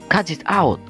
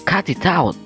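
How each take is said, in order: The two takes are said the same way.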